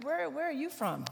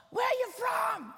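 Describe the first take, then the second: First: Said in the usual way. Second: High-pitched mock yell; yelling neighbor. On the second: Chicagoan neighbor yelling across the street at the newcomer, mock yell. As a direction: holler it like a gruff-mannered Chicagoan. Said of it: "he yelled and said".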